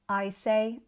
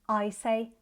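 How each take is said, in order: The two takes are said the same way.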